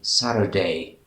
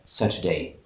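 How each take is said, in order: First: The middle t sounds like a quick r. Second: The middle t is a clear t sound. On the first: "In America, they say Saturday" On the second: "instead of Saturday"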